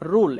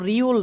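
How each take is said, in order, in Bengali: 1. স্বরধ্বনিটি সাধারণ 'oo', কোনো glide নেই। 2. স্বরধ্বনিটি y-glide সহ উচ্চারিত হয়, 'yoo'। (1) "এটা উচ্চারণ করতে হবে রুল" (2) "এটা কিন্তু রিউল না"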